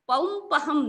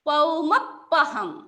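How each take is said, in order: First: The middle p is single and light. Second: The middle p is doubled and pressed. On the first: The speaker calls it wrong. "पौंपहम् नहीं है" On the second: The speaker calls it right.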